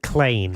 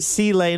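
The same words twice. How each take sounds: First: The C blends into one syllable with lane. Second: The C is said as a separate letter.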